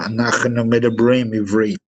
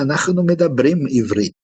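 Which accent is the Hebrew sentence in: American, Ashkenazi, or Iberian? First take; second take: American; Iberian. First: It is spoken with an American English accent. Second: It is spoken with a Portuguese or Spanish accent. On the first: "Pega um judeu americano" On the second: "um judeu que fala português ou espanhol ou italiano, ele vai falar"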